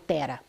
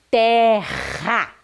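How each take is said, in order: First: The R is a soft, weak tap. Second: The R is a strong, forceful sound. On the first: The speaker calls it wrong. "eu não falo tera" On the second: The speaker calls it right. "Eu falo terra"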